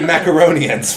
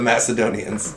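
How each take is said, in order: First: The word begins with a 'mac' sound. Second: The word begins with a 'mass' sound. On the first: The speaker calls it wrong. "that sounds like mac and cheese" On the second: The speaker calls it right. "It's the Macedonians"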